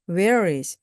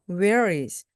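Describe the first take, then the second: No difference in how they are said.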